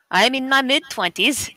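It is said in a put-on German accent.

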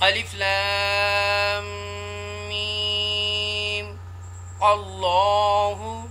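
There is a pause between Mim and Allahu. "number two, waqfe, pause, pausing"

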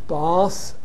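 It is said in a southern English accent. "In England, you've got trap and bath"

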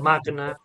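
It is pronounced the restored classical way. "I'm using restored classical pronunciation"

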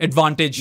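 It is said in a British accent. "I still have my British uh, things in that"

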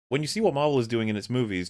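It is read smoothly with natural phrasing. The speaker calls it right. "That's probably like the most standard way to read that sentence"

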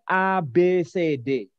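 The letter names are said the Dutch way. This is how the alphabet is said in Indonesia. "Di bahasa kita itu kalau menyebut abjad itu kan"

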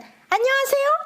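The greeting sounds bright and cheerful. "이게 더 밝고 명랑하긴 해"

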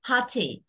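The t in the middle is a crisp t. "Anh thì người ta sẽ đọc là party"

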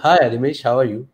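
It is said at a natural pitch.

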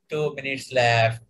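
It is said in a quiet, calm tone. It is just a neutral time signal. The speaker calls it right. "I will try my best to again to be very quiet and calm to say"

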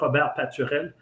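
The name is said with a French accent. The listener did not recognize the name.

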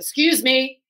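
It is said in a low, grounded voice.

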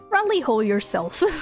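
It is said in a put-on queen voice.

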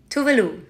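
The name is pronounced the Swedish way. "The Swedish way is Tuvalu"

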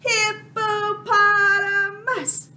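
The word is shouted loudly.

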